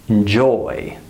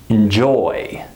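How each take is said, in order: Both takes have the same delivery.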